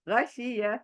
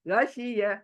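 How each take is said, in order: Both takes have the same delivery.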